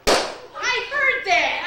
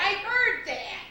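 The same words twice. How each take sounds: First: Excited. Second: Said in the usual way. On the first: Acted. Deaf woman suddenly hears.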